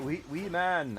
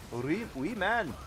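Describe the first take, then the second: First: Said in the usual way. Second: Slow Scottish accent on wee man. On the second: Shown as a demonstration. Thanking a viewer in a Scottish accent. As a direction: say it like a Scot, drawn out. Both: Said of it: "I feel like I should say it in Scottish".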